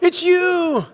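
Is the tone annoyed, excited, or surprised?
excited. It sounds excited, like announcing good news. The listener is the winner. "you can tell somebody something, you know, that they've won"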